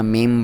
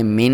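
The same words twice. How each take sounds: First: "میم" closed with humming m; correct m ending. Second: "مین" closed with a clear n; wrong n ending. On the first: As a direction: end "میم" on a held m. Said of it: "میم پڑھنا". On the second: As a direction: end "مین" on n instead of m. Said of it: "مین نہیں پڑھنا". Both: Shown as a demonstration.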